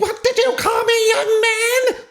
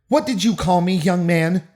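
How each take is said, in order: First: It is read in an overacted shrill voice. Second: It is read in a plain normal voice.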